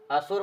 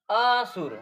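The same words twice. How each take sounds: First: Said in the usual way. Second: असुर loud and higher, with अ held long before सुर; split word. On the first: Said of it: "असुर माने राक्षस". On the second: Shown as a demonstration. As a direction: punch out a separated अ, then सुर, in असुर. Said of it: "अ को अलग करके बोल दिया जाए". (असुर का अ अलग, लंबा और ज़ोर से)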